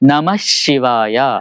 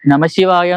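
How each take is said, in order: First: The sh sound is doubled and lengthened. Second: The sh sound is short and single. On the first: The speaker calls it right. "ആ ശ ഇരട്ടിച്ച് ഷ ആവും" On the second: The speaker calls it wrong. "നമശിവായ എന്ന് ഉച്ചരിക്കില്ല"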